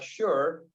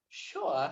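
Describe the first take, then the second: First: It is said in an American accent. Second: It is said in a British accent.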